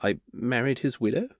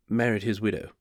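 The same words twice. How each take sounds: First: "I married his widow?" rising on "widow"; quiet statement turned into a question, lifting at "widow". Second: Said in the usual way. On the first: Acted. Sheepish guest confessing to the host, "widow" rising like a question. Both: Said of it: "saying it like it was a question".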